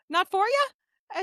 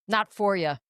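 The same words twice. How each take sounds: First: Friendly question. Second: Cowboy drawl. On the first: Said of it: "What I heard was". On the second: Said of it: "He's like". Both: Retold or imitated.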